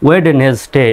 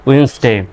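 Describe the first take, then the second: First: It has three syllables with a D sound. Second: It has two syllables with no D sound. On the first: The speaker calls it wrong. "এভাবে হওয়ার কথা তাই না?" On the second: The speaker calls it right. "আরও যদি সঠিকভাবে করেন"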